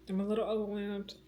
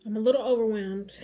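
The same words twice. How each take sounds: First: Said through a soft laugh, softer; half-laughing admission. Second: Said in the usual way. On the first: Real, not acted. Repeats it with a laugh.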